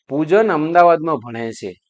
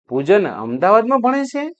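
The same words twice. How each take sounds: First: It is said as a plain statement. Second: It is said as a question.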